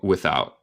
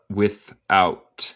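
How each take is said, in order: First: The final T becomes a glottal stop. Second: The final T is clearly released. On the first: "pero yo digo" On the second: "tú puedes decir en inglés neutral"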